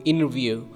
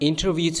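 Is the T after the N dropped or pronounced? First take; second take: dropped; pronounced. First: The T after the N is left out. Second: The T after the N is pronounced.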